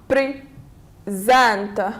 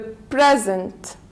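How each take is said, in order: First: The stress is on the second syllable. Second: The stress is on the first syllable. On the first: It is used as a verb. "if we have it as a verb, we stress on the second one" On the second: It is used as a noun. "if we have it as a noun, we stress on the, we say the present"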